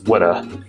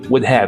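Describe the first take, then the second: First: The words are squeezed into one short word. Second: Both words are said fully and separately. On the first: "We don't say would have as woulda" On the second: "We don't say would have as woulda"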